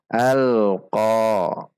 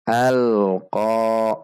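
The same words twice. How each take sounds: The two takes are said the same way.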